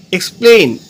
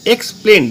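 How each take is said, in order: First: Said in the usual way. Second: "explain" broken into two, eks, plen; slight break inside "explain" after eks; split into syllables. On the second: Shown as a demonstration. Teacher showing two syllables, "explain" said in separate parts. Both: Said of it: "দুটো syllable আছে".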